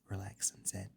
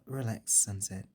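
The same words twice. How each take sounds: First: It is said in a lower, calmer, soothing voice. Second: It is said in an affected, put-on character voice. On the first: The speaker calls it right. "lowered her voice to a more soothing one" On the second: The speaker calls it wrong. "I don't know why I did the rarity voice"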